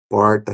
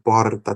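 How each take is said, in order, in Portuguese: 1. O R é retroflexo, com a língua curvada para trás. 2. O R é um tepe rápido, uma única batida.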